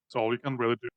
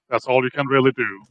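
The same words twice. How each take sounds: First: It is said very quietly. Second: It is said in a loud voice.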